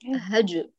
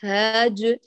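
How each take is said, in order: First: The first vowel is short, going straight on. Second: The first vowel is drawn out long. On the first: The speaker calls it right. "من الهاء إلى الجيم مباشرة" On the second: The speaker calls it wrong. "لا ليس هاج"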